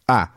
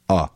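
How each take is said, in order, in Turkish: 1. Ünlü sesi ağzın önünde çıkarılıyor. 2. Ünlü sesi çok geride, gırtlakta çıkarılıyor. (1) "Yani önde bir vokalden bahsediyoruz" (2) "Aslında çok geride. Gırtlakta yani"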